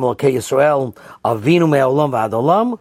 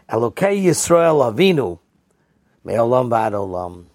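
First: A pause comes after Yisrael, before Avinu. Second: A pause comes after Avinu, not after Yisrael. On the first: Our Father refers to God, from forever until forever. "Do you say" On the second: It means the God of our forefather Yisrael. "or do you say"

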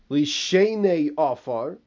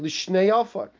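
First: A vowel is heard between sh and n. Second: No vowel is heard between sh and n. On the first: Those who sleep in the dust. The speaker calls it right. "instead of saying in the first bracha" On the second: To two earths. The speaker calls it wrong. "I've heard people say L'Shnei Afar. L'Shnei Afar means nothing"

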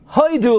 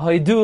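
First: The stress is on the first syllable. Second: The stress is on the last syllable. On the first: "it's a Milel" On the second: "Why in Hoidu is it Milra"

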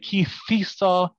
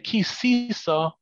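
First: The middle consonant is a soft th sound. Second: The middle consonant is an s sound. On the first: This is a correct traditional pronunciation. The speaker calls it right. "If you say kithisa and you're Temonish or Tunisian, it's correct" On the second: This swaps in the wrong letter and makes no sense. The speaker calls it wrong. "that's just switching a samach for a taf"

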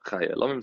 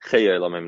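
First: The vowel after 'ch' is 'ah' (patach). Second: The vowel after 'ch' is not 'ah'. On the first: The speaker calls it wrong. "not chay elamim" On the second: The speaker calls it right. "Mishabura says that it should be chay elamim"

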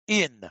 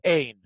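First: The vowel sounds like 'ee' as in 'seen'. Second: The vowel sounds like 'ay' as in 'rain'. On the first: This avoids confusion with the Hebrew word for no. The speaker calls it wrong. "the way Talmud teachers have taught this word is in" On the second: This is the original Aramaic pronunciation. The speaker calls it right. "in Aramaic, it would be ein"

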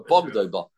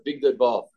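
First: The first syllable has an 'o' vowel. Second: The first syllable has an 'i' vowel. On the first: The speaker calls it right. "We read it with a comet, like a Bog Deba" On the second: The speaker calls it wrong. "we don't read it, the Big Deba, with a chirik"

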